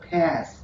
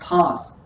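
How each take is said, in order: First: The word is said in an American accent. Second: The word is said in a British accent. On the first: "in American English, it is pronounced as pass" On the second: "British English where we pronounce this word as pass"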